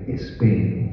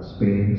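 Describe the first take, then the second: First: It is said with a Spanish accent. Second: It is said with a native English accent.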